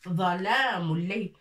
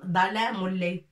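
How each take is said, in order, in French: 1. Le premier mot commence par un son z emphatique. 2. Le premier mot commence par un son d simple. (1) "لا، ظلام الليل" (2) "لن نقول ظلام الليل"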